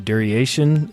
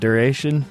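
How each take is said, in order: First: The word is said with an added extra sound. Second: The word is said without any added sound. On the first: The speaker calls it wrong. "I say duration ... I'm adding extra letters" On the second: The speaker calls it right. "instead of duration"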